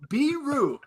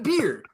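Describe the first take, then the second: First: The name has two syllables, ending in oo. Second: The name has one syllable, like beer. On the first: The speaker calls it right. "B E E dash R O O. Beeru" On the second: The speaker calls it wrong. "Not beer"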